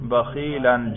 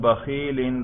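First: The word ends in the sound -an. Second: The word ends in the sound -in. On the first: The word is in the accusative case. "نصب پہ تلفظ کریں" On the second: The word is in the genitive case. "جر پہ تلفظ کریں"

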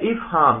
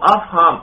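First: The first vowel is an 'i' sound. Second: The first vowel is an 'a' sound. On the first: It is the verbal noun meaning to make someone understand. "دیکھو حمزہ کے نیچے زیر پڑھنا" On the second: It is the plural meaning understandings. "الف کے فتحہ کے ساتھ آپ نے پڑھنا ہے"

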